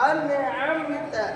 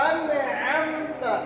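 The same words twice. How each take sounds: The two takes are said the same way.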